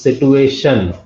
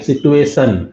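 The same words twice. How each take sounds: First: The ending is said with a sh sound. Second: The ending is said with an s sound. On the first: The speaker calls it right. "It is situation" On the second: The speaker calls it wrong. "you're saying situation"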